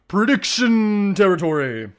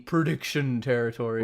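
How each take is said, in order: First: It is said in a dramatic, theatrical voice. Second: It is said in a plain, ordinary voice.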